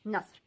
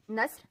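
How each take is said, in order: First: नस्र said with a heavier a sound; second word. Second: नस्र said with a short clear a; first word. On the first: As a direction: say नस्र with a rounded, heavier vowel. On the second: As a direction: say नस्र with a light, thin a. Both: Shown as a demonstration. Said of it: "आप नस्र को की जगह नस्र पढ़ते हैं".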